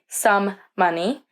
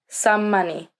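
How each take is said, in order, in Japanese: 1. 2つの「m」の音は、別々に言います。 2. 「m」の音を一つ長く伸ばすと、単語がつながります。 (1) "we don't say some money" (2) "we just hold that mm for a moment and link the words together"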